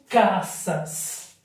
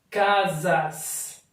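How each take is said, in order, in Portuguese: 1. A consoante do meio é um som de s sibilante. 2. A consoante do meio é um som de z sonoro. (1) "eu não digo caças" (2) "eu digo casas"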